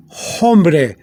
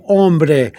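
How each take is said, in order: First: "hombre" with an audible, breathed H at the start; "hombre" mispronounced with an English H; sounded H. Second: "hombre" said as OM-breh, slowly; Spanish "hombre" with the H dropped; silent H. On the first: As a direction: say "hombre" as HOM-breh, H pronounced. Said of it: "But you don't say". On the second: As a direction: start "hombre" straight on the O, no H. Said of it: "you don't pronounce the H". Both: Shown as a demonstration.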